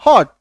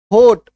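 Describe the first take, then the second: First: "हॉट" with an open o; actual pronunciation. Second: "होट" with a closed, long o; variant pronunciation. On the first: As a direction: say "हॉट" with ऑ, not a closed ओ. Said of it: "Actually ये उच्चारण क्या होता है". ("हॉट", अर्धचंद्र वाला खुला ऑ) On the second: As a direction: say "होट" with ओ as in ओकार. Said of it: "कई लोग होट बोलते हैं". ("होट", ओ की मात्रा के साथ) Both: Shown as a demonstration.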